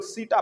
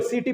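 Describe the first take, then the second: First: सीटा with a long aa at the end; pronounced seetaa. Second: सीटी with a long ee at the end; pronounced seetee. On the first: Teacher shows the other way to say setae, सीटा ending in aa. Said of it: "कुछ लोग सीटा पढ़ते हैं". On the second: Teacher shows one way to say setae, सीटी ending in ee. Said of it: "कुछ लोग सीटी पढ़ते हैं". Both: Shown as a demonstration.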